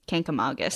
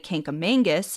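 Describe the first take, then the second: First: No n sound comes before the g. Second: An extra n sound comes before the g. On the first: The speaker calls it right. "The correct way to say it is Kank-a-magus" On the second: The speaker calls it wrong. "Many people try to put a second N in the word and say Kankamangus. This is the most common mistake"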